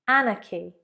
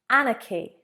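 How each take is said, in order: Both takes have the same delivery.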